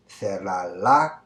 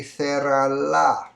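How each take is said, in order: First: "cerrarla" drawn out with a rise; slow option. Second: "cerrarla" drawn out, higher and louder; slow, emphatic answer. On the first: Teacher reading one option to students. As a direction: offer "cerrarla" as one choice, slowly. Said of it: "would you say". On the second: Teacher revealing the right answer to students. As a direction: announce the answer slowly. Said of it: "It would be". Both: Shown as a demonstration.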